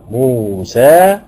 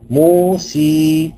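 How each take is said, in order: First: The final vowel is a fully open a. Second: The final vowel is a pure ee sound. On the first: "ادي الفتحة اهو" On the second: "لو انا قرأتها بالياء الخالصة"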